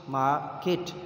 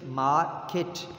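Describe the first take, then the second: No difference in how they are said.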